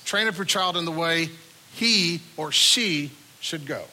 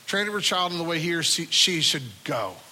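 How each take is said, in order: First: The stress falls on "he or she". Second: The stress falls on "should go". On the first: The path should suit the child's own personality. "Emphasis one is on the personality, the character, the makeup of the kid" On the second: The path should lead to the right destination. "emphasis number two, is on the destination that they should end up"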